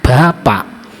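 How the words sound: The final k sound is clearly pronounced. "akhiran huruf K dibaca jelas"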